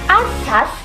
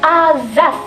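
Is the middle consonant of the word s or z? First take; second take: s; z. First: The middle consonant is an s sound. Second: The middle consonant is a z sound. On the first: The speaker calls it right. "pelafalan fonem konsonan S" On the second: The speaker calls it wrong. "berubah menjadi fonem konsonan Z"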